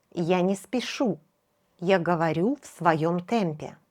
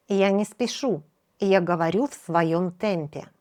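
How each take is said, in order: Both takes have the same delivery.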